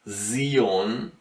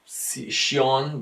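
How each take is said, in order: First: The s sound is voiced and buzzing. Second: The s sound is unvoiced, without buzzing. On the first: The speaker calls it right. "pronounce in a hummed or buzzed way" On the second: The speaker calls it wrong. "not Shion"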